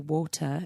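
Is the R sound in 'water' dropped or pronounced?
dropped. The R sound at the end is dropped. It sounds foreign to local listeners. "If I say water"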